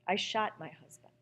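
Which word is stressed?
shot. The stress falls on the word shot.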